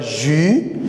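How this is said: The letter name sounds French, like zhee. "En français"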